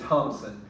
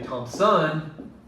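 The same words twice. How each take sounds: First: The stress is on the first syllable. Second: The stress is on the second syllable. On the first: The speaker calls it right. "I say Thompson" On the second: The speaker calls it wrong. "I don't say Thompson"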